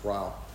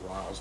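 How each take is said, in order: First: The name ends without a z sound. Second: The name ends with a z sound. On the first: The speaker calls it right. "it's Ryle" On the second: The speaker calls it wrong. "he's not Riles, I've been calling him Riles"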